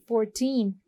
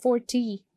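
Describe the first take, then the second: First: "fourteen" said slowly, weight on the second syllable; stress on second syllable. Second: "forty" said slowly, weight on the first syllable; stress on first syllable. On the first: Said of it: "second syllable to stress upon". ("fourteen" में दूसरे syllable पर ज़ोर) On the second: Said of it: "first syllable". ("forty" में पहले syllable पर ज़ोर) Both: Shown as a demonstration.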